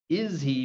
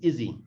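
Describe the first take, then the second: First: The H sound in he is pronounced. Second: The H sound in he is dropped.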